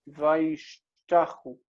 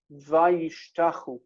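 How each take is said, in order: First: "Vayishtachu" drawn out very slowly on its own, falling at the end; "Vayishtachu" spelled out in sound: vai-shta-chu, each syllable slow and clear; slow model pronunciation. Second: "Vayishtachu" said slowly in the flow of the sentence; "Vayishtachu" as vai-shta-CHU, read in context; Hebrew word read out. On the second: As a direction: read "Vayishtachu" as part of the line, unhurried. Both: Shown as a demonstration. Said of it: "When they make it Vav consecutive".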